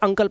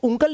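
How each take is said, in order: First: The first vowel sounds like 'uh'. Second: The first vowel sounds like 'oo'. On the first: The speaker calls it right. "इसलिए इसे अंकल पढ़ते हैं" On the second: The speaker calls it wrong. "इसलिए इसको उंकल नहीं पढ़ते"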